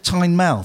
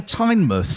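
First: Tynemouth with a full "mouth" ending; "mouth" pronunciation. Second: Tynemouth ending in a short "muth"; "muth" pronunciation. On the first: Retold or imitated. Host quotes partner's correction, full "mouth" ending. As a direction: say Tynemouth to rhyme with south. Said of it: "you've said Tynemouth". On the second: Shown as a demonstration. Host shows how he was saying it, short "muth". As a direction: reduce the end of Tynemouth to "muth". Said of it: "I was saying Tynemouth".

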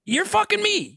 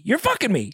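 First: Outraged. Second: Said in the usual way. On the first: Real, not acted. Outraged high shout.

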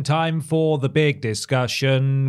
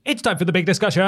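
First: Drawn-out, slow show announcement; slow announcer voice. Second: Upbeat segment announcer. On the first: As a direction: stretch each word like a host. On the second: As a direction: announce it like a show host. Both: Acted.

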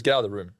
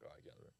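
First: Said in the usual way. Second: Whispered echo, almost no voice. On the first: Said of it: "He goes". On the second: Retold or imitated. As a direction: breathe it out under your breath. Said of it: "I'm like".

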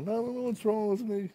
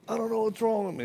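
First: High, teary voice breaking on wrong; mock crying. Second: High, teary mock sob of a broken man; imitating crying. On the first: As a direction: sob it out like a broken man. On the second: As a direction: whimper it like he's falling apart. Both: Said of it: "And he starts crying".

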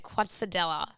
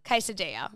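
First: "Quesadilla" read as spelt, kwot-suh-DELL-uh; mispronounced quesadilla. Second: Said in the usual way. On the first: Shown as a demonstration. Friend unsure how to say a menu word, mispronounced quesadilla. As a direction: say "Quesadilla" with a kw and hard double L. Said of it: "how do you say it?". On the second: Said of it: "I always say quesadilla".

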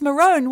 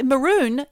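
First: High, loud MAROON said "ma-rone"; MAROON rhyming with bone; long O in MAROON. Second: High, emphatic MAROON rhyming with moon; MAROON ending like "balloon". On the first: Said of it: "why isn't it balone". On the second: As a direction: say MAROON with a long oo. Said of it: "If it's". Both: Shown as a demonstration.

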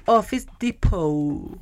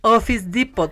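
First: Office Depot said Spanish-style, slow and flat; right Office Depot. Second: Office Depot said English-style, ofis dipot; wrong Office Depot. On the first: Mocking English-speakers, giving the proper Spanish way. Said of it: "se dice Office Depot". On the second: Mocking English-speakers, showing the wrong way to say it. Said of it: "No se dice". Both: Shown as a demonstration.

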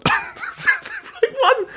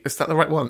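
First: Much higher, giggling question; laughing doubt. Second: Said in the usual way. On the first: Real, not acted. Host unsure of charity name, laughing question. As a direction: laugh at own uncertainty, a bit slower.

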